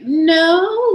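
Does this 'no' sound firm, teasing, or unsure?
unsure. A hesitant no rising like a question. Maybe; I am not sure. "like question mark, but I'm not sure, maybe"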